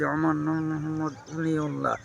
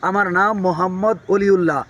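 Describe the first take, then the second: First: The words are mumbled with a barely opened mouth. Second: The words are spoken loudly with clear, open articulation. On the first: The speaker calls it wrong. "চিবিয়ে চিবিয়ে কথা বললাম" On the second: The speaker calls it right. "এই কথাটা যদি আমি স্পষ্টভাবে বলি"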